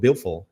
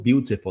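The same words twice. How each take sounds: First: The t sound is swallowed. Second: The t sound is pronounced clearly. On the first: "ele falou beautiful ... ter essa comida no T" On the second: "Ele não falou beautiful"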